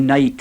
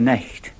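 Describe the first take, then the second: First: It is said with an English pronunciation. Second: It is said with a Scots pronunciation.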